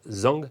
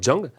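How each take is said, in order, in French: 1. Le mot commence par un simple son z. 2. Le mot commence par un son dj. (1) "ça se prononce pas" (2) "mais Djang"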